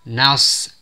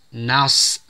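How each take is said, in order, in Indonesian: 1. Huruf n terdengar tipis dan s tebal. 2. Huruf n terdengar tipis dan s tebal.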